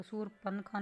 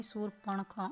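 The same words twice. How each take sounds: First: शूरपणखा with dental n instead of retroflex ण; wrong N sound. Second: शूरपणखा with retroflex ण. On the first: Teacher shows the mistake, शूरपणखा with plain dental n. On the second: Teacher corrects the word, शूरपणखा with retroflex ण. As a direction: curl the tongue back for ण in शूरपणखा. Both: Shown as a demonstration. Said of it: "अणे आएगा इसमें".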